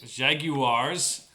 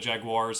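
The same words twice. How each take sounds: First: It is said with a British accent. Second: It is said with an American accent.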